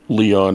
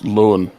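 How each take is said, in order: First: The name is said like 'Leon'. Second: The name is said like 'Lowen'. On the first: The speaker calls it wrong. "you're definitely mispronouncing it" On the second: The speaker calls it right. "it's Lowen"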